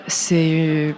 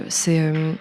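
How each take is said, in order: Both takes have the same delivery.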